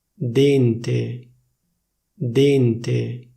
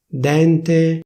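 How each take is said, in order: First: "Dente" with a closed E, dénte; "Dente" the Milan way, closed E; Milanese closed e. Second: "Dente" with an open E, dènte, a bit higher; "Dente" standard open E; official open e. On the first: Showing viewers Milanese "Dente", closed E. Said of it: "come viene pronunciata a Milano". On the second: Showing viewers standard "Dente", open E. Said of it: "prima ti dico la pronuncia ufficiale". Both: Shown as a demonstration.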